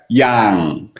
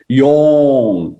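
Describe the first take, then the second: First: The vowel is said with lips back and open. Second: The vowel is said with lips pushed forward. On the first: "yang means your mouse need to go back" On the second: "Yong means your mouse need to come out"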